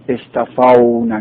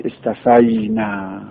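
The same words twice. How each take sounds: First: استفونا said slowly with u, rising at the end; wrong form. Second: استفینا said with a clear i, falling at the end; correct form. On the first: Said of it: "نمیگید". (استفونا با «و»، تلفظ نادرست) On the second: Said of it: "میگید استفینا". (استفینا با «ی»، تلفظ درست) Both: Shown as a demonstration.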